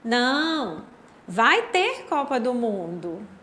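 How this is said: There is a pause after the first word. It answers a question, saying the World Cup will happen. "eu vou ler com a vírgula, com a entonação da minha voz"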